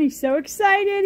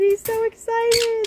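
First: Said in the usual way. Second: Higher, slow sing-song to the bird; pet-talk coo. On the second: Real, not acted. Owner coos to her excited bird in high sing-song.

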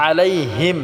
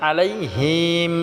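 First: আলাইহিম with a brief, unstretched হিম; short him. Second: আলাইহিম with a long ee in হিম; wrongly stretched him. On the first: Teacher showing correct reading, আলাইহিম without elongation. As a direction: close হিম quickly on the m. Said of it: "এখানে কোনো টান করা যাবে না". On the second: Teacher showing a common mistake, আলাইহিম with long him. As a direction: drag out the vowel of হিম. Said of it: "অনেকে আছি আমরা হিম বলি". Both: Shown as a demonstration.

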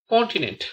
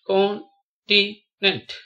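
First: Said in the usual way. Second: "continent" very slowly as con, ti, nent; long gaps between the syllables of "continent". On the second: Shown as a demonstration. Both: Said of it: "spell the word".

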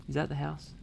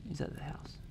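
First: Said in the usual way. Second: Whisper. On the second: Real, not acted. Whispered repeat.

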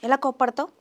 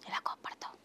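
First: Said in the usual way. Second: Breathy whispered question; whispered teasing prompt. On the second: Shown as a demonstration. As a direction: drop to a hushed whisper to tease. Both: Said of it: "Isha కోపం వస్తే ఎలా చేస్తుంది".

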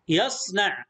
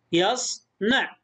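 First: Said in the usual way. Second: Slow يصنع as "yas ... na'"; split into syllables. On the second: Shown as a demonstration. Teacher shows the closed syllables, slowly split. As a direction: pause inside يصنع after the s. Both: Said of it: "مقطع ساكن".

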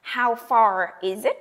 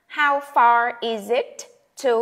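First: How far is it with is and it linked by the Z. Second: Slow model line. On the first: Teacher models linking is it in How far is it. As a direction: slide Z into it. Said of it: "Nói cái âm Z qua thì chúng ta nghe là is it". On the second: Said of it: "Cộng cho cái danh từ đó". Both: Shown as a demonstration.

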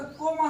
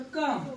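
First: कोम said with a long o, the wrong way; wrong pronunciation. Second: कम said with a short uh, not o; correct come. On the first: Teacher mocking the wrong reading of come, with a long o. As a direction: say कोम with a round o as a mistake. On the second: Teacher showing students the right way to say come. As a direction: say कम with the short uh vowel. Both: Shown as a demonstration. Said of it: "आपण इथं कोम असं म्हणतो का?".

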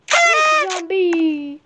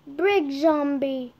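First: Drawn-out, louder, higher cheer; excited cry. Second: Said in the usual way. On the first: Real, not acted. Player hailing the brick zombie find, excited drawn-out cry. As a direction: stretch it out in a high, loud cry.

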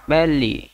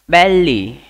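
First: Said in the usual way. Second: बेली called out loud as BEL-lee; louder model word. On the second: Shown as a demonstration. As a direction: announce बेली loudly to the class. (बेली ज़ोर से बोलना) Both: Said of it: "उदर को हम लोग कैसे बोलेंगे?".

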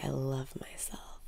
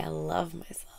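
First: Softly whispered affirmation; hushed self-love mantra. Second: Said in the usual way. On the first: Shown as a demonstration. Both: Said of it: "Breathe in and say".

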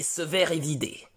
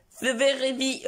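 First: Said in the usual way. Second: "Severevi" run together as one slurred word, syllables swallowed; mumbled. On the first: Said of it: "Est-ce que tu peux répéter". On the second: Acted. Son fumbling the phrase he must repeat, "Severevi" all slurred. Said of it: "Non, mon fils".

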